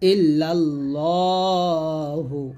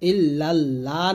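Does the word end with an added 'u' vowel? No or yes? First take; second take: yes; no. First: The word ends with a final 'u' vowel. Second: The word ends without a final vowel. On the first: The speaker calls it right. "বলবেন" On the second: The speaker calls it wrong. "ইল্লাল্লাহ না বলে"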